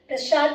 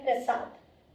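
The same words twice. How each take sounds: First: The word is said hastily, with a slurred sound. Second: The word is said carefully, with each sound clear. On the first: The speaker calls it wrong. "हमें जब जल्दी होती है तो हमारे मुंह से प्रसाद निकल जाता है" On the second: The speaker calls it right. "लेकिन सही शब्द है प्रसाद"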